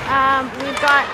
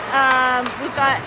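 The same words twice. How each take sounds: The two takes are said the same way.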